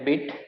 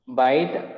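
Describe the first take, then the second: First: The vowel is short, like 'bit'. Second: The vowel is long, like 'bite'. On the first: The speaker calls it right. "I think it is a bit" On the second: The speaker calls it wrong. "You said bite"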